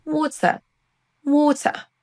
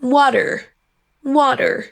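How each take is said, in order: First: Higher British WATER, no R; WATER with clear T, ending on a schwa. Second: WATER with T as D and final R; higher American WATER, R-coloured ending. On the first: Teacher echoing the dictionary for learners, British WATER. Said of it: "un son schwa à la fin". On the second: Teacher echoing the dictionary for learners, American WATER. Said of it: "Passons à l'accent U S maintenant". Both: Shown as a demonstration.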